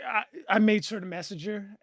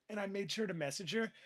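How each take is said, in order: First: Repeated louder for emphasis. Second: Said in the usual way. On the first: Real, not acted. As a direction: punch it harder the second time.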